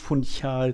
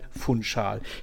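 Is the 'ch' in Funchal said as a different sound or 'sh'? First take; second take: different; sh. First: The 'ch' is pronounced with a non-'sh' sound. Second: The 'ch' is pronounced as an 'sh' sound. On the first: The speaker calls it wrong. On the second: The speaker calls it right.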